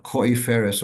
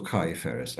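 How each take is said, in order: First: KOIFERES with an "oy" first vowel; variant pronunciation. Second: KAIFERES with an "eye" first vowel; variant pronunciation. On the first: Teacher citing a disputed word, Koiferes said with "oy". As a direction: say Koiferes with "koy" at the start. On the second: Teacher offering the other reading, Kaiferes said with "eye". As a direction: say Kaiferes with "kai" at the start. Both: Shown as a demonstration. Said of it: "Someone's pointing out".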